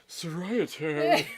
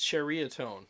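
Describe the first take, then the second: First: The name begins with a 'so' sound. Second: The name begins with a 'chur' sound. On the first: The speaker calls it wrong. "don't I feel stupid? Here I am all like" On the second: The speaker calls it right. "it's churiatone"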